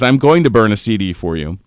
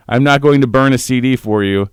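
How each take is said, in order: First: Going stressed with a rise; correcting the misread line; corrected reading. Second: Going said flat; not going to burn, the first misreading; misread line. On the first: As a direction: stress going, lifting at the end. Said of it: "he says". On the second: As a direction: stress on going. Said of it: "It, uh, no". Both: Shown as a demonstration.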